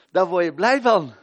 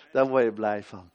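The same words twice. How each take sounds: First: Loud and high, ringing out; exclaimed joy. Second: Said in the usual way. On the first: Acted. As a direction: throw it out with delight. Repeated answer, first loud.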